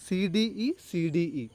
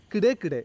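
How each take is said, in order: First: "സി ഡി ഇ" as three separate letter names; spelt letter by letter. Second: "കിടേ കിടേ" as a made-up two-syllable word; acronym as word. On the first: Teacher expanding the code for students, spelt letter by letter. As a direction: spell out "സി ഡി ഇ", each letter named. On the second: Teacher coining a memory code for students, acronym as word. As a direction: blend the letters C D E into "കിടേ". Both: Shown as a demonstration. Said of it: "ഞാൻ ഉണ്ടാക്കിയൊരു code".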